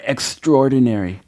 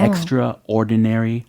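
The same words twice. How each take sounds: First: It is said quickly as one blended word. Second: It is said slowly as two separate parts. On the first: "한 단어처럼 빠르게 발음을 하셔도 된다" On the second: "띄어져 있는 것처럼 발음을 하실 수도 있고"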